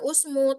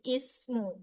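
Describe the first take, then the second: First: The word begins with a u vowel. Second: The word begins with an i vowel. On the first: The speaker calls it wrong. "bukan dibaca usmu" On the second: The speaker calls it right. "tapi ismu"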